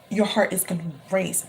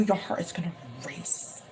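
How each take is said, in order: First: Said in the usual way. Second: Breathy hushed whisper. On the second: Acted. Reader whispering a prediction to the client. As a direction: lean in and whisper it.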